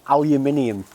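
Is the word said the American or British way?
British. The word is said the British way. The speaker calls it wrong. "I don't like saying aluminium"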